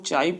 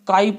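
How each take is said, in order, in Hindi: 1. शब्द की शुरुआत "ch" की आवाज़ से होती है। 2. शब्द की शुरुआत "k" की आवाज़ से होती है। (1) "इसको हम लोग चाई पढ़ते हैं" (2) "बहुत से लोग काई पढ़ लेते हैं"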